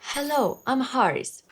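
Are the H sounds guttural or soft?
soft. The H sounds are soft and breathy.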